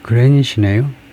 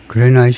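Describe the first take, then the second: First: The second syllable sounds like 'nit'. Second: The second syllable sounds like 'night'. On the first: The speaker calls it right. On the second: The speaker calls it wrong. "그레나이트 아니고"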